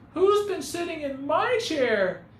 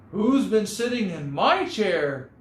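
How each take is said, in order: First: It is said in a tiny, small voice. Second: It is said in a medium-sized voice. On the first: "he cried in his wee little voice" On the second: "she asked in her medium-sized voice"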